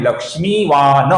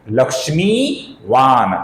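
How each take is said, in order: First: लक्ष्मीवान ending in a full "na"; wrong full final N. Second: लक्ष्मीवान with long mee, closing on a bare n; half final N. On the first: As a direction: add a vowel after the last n of लक्ष्मीवान. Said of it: "पूर्ण उच्चारण नहीं करना है". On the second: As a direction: stretch लक्ष्मीवान and stop on the n without a vowel. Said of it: "इसका सही उच्चारण है". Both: Shown as a demonstration.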